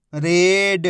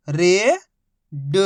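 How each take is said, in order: First: Whole word in one joined, drawn-out piece; teacher's blended model reading; syllables blended. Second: Each syllable held, long pause between; first syllable rising, then a separate second. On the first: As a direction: join the sounds into one clear word. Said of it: "आपस में मिला के पढ़ना है". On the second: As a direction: sound it out for beginning readers. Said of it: "एक ही अक्षर का उच्चारण करके". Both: Shown as a demonstration.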